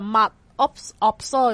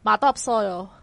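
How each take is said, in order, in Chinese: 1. 每个词都完整、分开地发音。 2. 两个词连在一起读，部分音会弱化。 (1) "你照字面睇，其实其实系mud absorb" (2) "我哋练咗之后咧，即系个正式个发音系mud absorb"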